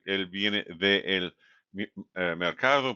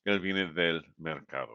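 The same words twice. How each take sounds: First: "él viene de el mercado" with "de el" uncontracted, spelled out; wrong form. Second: "del" said as one contracted syllable; "él viene del mercado" with "del" run together as one word; correct form. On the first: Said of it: "you don't say él". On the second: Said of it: "but él viene del mercado". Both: Shown as a demonstration.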